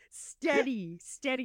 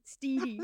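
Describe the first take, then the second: First: The first vowel is a short E. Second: The first vowel is a long E. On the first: The speaker calls it right. "Steady, not Steedy" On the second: The speaker calls it wrong. "Steve has like a long E"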